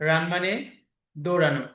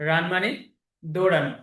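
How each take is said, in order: The two takes are said the same way.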